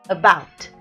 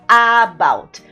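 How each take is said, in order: First: The first vowel is a weak 'uh' sound. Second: The first vowel is a full open 'a'. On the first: The speaker calls it right. "esse primeiro som é um schwa, é uh" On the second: The speaker calls it wrong. "começa com A, a vontade é de falar about"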